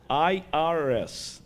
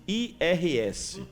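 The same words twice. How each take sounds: First: I R S slowly as English letter names. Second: I R S spelled out slowly in Portuguese; letters in Portuguese. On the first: Speaker repeating the tax agency's name, I R S in English. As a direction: say I R S the American way, letter by letter. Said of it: "tem três letrinhas que arrepia". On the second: Speaker introducing three feared little letters, I R S in Portuguese. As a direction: say I R S as slow Portuguese letter names. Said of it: "chama-se I R S". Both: Shown as a demonstration.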